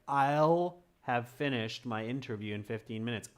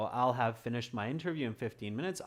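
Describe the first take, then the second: First: The contraction I'll is pronounced strongly and distinctly. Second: The contraction I'll is pronounced lightly and softly. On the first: "really enunciate, like" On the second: "it will become softer. So you'll say I'll"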